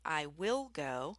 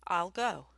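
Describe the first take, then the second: First: Each word is said fully and separately. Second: The first two words merge into one contraction. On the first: "instead of saying I will go" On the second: "we often say I'll go"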